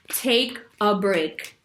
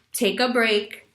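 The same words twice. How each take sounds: First: "Take a break." slowly spaced, each word deliberate; slow firm advice. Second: Said in the usual way. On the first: Shown as a demonstration. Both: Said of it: "Say nothing".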